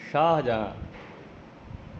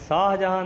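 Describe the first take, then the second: First: The first sound is a sh. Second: The first sound is a plain s. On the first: The speaker calls it right. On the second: The speaker calls it wrong.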